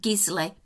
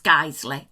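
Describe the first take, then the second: First: It is said the way Americans might say it. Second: It is said the way local people say it. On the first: The speaker calls it wrong. "Americans, you may pronounce it Gisley" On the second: The speaker calls it right. "but it's Guiseley, I assure you"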